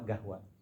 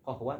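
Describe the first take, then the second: First: The word begins with a hard g sound. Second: The word begins with a deep q sound. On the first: This is the Saudi dialect form. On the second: This is the standard Arabic form.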